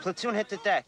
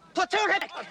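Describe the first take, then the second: First: The command is said at a quieter, normal volume. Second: The command is shouted loudly. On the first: The speaker calls it wrong. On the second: The speaker calls it right.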